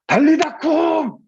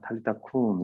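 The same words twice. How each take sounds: First: It is shouted loudly. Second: It is said softly and lovingly.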